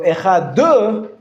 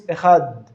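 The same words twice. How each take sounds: First: Echad with an extra uh after the d, slow; wrong final vowel. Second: Echad ending cleanly on the d with no vowel; correct final stop. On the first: Teacher showing students the wrong Echad. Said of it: "you'd be turning it into a Shva Na". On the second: Teacher showing students the correct Echad. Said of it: "if it's at the end of the word". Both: Shown as a demonstration.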